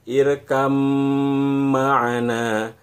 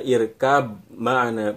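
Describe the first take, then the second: First: The first word ends with an m sound. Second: The first word ends with a b sound. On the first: The speaker calls it right. "bunyi ba jadi hilang, langsung masuk ke bunyi mim" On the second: The speaker calls it wrong. "bukan dibaca irkab ma'ana"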